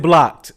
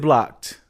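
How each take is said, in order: First: Punchy, loud one-word verdict; loud blocked. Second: Said in the usual way. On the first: Retold or imitated. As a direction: bark it out with finality. Retold blocking reply, loud.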